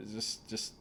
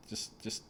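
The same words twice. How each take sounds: The two takes are said the same way.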